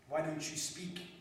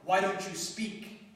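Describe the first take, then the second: First: It is said at a normal, softer volume. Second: It is said at a louder volume.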